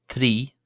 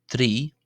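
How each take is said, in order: The two takes are said the same way.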